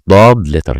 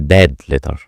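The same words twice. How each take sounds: First: The first sound is heavy and deep. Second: The first sound is light and thin. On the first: The speaker calls it right. "is a heavy letter" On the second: The speaker calls it wrong. "Don't say Dad letter"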